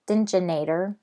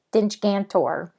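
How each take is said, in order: First: The name starts with 'Stinch' and ends '-inator'. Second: The name starts with 'Stench' and ends '-gantor'. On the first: The speaker calls it wrong. "I kept calling it Stinchinator. Uh, that's wrong" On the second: The speaker calls it right. "It's Stench Gantor"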